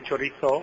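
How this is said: The z sounds like English th.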